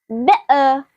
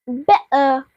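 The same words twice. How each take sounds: The two takes are said the same way.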